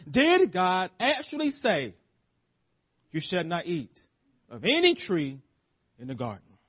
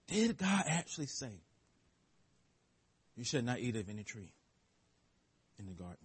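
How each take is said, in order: First: Serpent's question. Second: Low and much softer, fading to nearly nothing; sly, soft serpent question. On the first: Acted. Serpent's question voiced in sermon. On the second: Shown as a demonstration. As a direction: let the question slither out quietly. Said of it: "Notice the subtleness, the cleverness".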